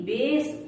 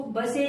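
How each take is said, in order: First: Said in the usual way. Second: बसे in two syllables, final e sounded; wrong reading. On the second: Shown as a demonstration. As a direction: misread base as बसे, "buh-say". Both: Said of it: "इसको बसे नहीं बोलेंगे".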